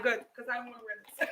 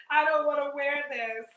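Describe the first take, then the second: First: Rushed and laughing through it; laughing relief. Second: Said in the usual way. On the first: Real, not acted. Vlogger relieved she can ditch the headset, rushing it out laughing. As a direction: blurt it fast while laughing.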